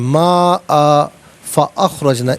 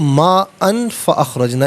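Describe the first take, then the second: First: It stops after maa, then says fa-akhrajna separately. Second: It says maa'an joined straight into fa-akhrajna. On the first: "रुकी थी ना तो फ़अख़रजना को फिर अलहदा पढ़े" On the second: "अगर मिलाकर पढ़ना हो"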